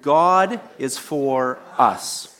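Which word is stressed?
us. The stress is on the word us.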